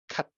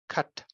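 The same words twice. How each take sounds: First: The final t is closed but not released. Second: The final t is closed and then audibly released. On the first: "You don't have this t, this release of the closure. You just say cut" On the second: "but not cut"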